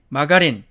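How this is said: It is said with Korean loanword pronunciation. "우리는 이것을 어떻게 읽느냐면"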